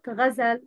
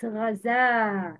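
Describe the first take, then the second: First: The vowel after the z is cut short. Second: The vowel after the z is held long. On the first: The speaker calls it wrong. "Not ghazal. No, not short" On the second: The speaker calls it right. "It's long"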